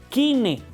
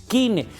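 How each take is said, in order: The two takes are said the same way.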